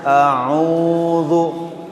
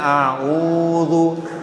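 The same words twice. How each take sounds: No difference in how they are said.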